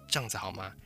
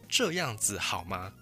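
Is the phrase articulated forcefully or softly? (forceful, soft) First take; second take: soft; forceful. First: The syllables are soft, relaxed and reduced. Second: Every syllable is fully and forcefully pronounced. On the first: It is ordinary everyday conversation. "我们通常在口语上，我们会比较偏向这样子好吗？" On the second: The listener may be being scolded or challenged. "很强调的去刻意把每一个音都发出来，不然就会变成这样子好吗？"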